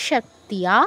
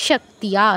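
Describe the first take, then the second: The two takes are said the same way.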